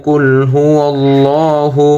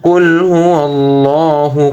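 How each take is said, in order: No difference in how they are said.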